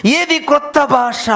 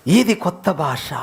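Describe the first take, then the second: First: ఏది pushed high and stretched, the rest slow; stress on ఏది. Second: Said in the usual way. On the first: Real, not acted. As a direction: lean hard on ఏది as a challenge. (ఏది పై ఒత్తిడి)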